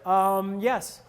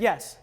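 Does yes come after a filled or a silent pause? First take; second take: filled; silent. First: A hesitant um comes before yes. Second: A silent pause comes before yes.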